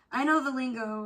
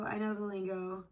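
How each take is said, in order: First: Louder and higher, bragging it out; I know the lingo, said loud and pleased; proud boast. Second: Said in the usual way. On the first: Shown as a demonstration.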